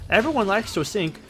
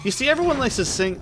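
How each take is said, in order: First: Queensland accent with altered vowels. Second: High, fast Queensland accent; a quick Queensland accent. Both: Shown as a demonstration. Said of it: "I was going for a Queensland accent".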